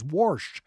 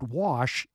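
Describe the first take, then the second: First: The word is said with a strong R sound. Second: The word is said without an R sound.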